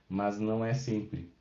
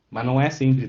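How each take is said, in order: First: "Mas não é sempre" repeated softer and slow, gentle stress on "é". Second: "Mas não é sempre" pressed firmly, "é" loud with a falling tune; firm emphasis. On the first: Teacher quietly restating to a student that it varies, soft slow repeat. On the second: Teacher warning a student the pattern isn't a rule, firm emphasis. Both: Shown as a demonstration. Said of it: "deu acaso dos exemplos que eu botei aqui".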